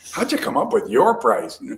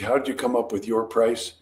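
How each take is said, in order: First: It is asked with a sharper, challenging inflection. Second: It is asked in a plain, neutral tone. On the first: It pushes harder against the price. "change your facial expression and voice inflection" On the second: It is a mild probe about the price. "that's really a three on the guts gauge"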